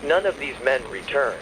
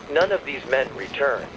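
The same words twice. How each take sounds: The two takes are said the same way.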